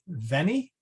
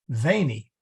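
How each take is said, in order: First: The first vowel is said short. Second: The first vowel is said long.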